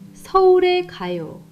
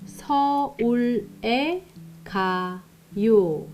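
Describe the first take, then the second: First: It is said at normal speed. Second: It is said slowly.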